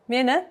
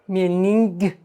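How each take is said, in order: First: The word ends in a vowel, no 'ng'. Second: The word ends with an audible 'ng' sound. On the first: The speaker calls it right. "nge doesn't sound. It's like silent" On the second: The speaker calls it wrong. "We don't say mening"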